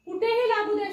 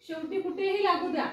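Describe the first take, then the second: First: कुठेही लागू द्या said higher and louder, punching कुठेही; emphatic, louder. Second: Said in the usual way. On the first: Shown as a demonstration. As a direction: hit कुठेही hard and raise the voice. Emphatic point in phonics lesson. (कुठेही या शब्दावर जोर देऊन, मोठ्या आवाजात)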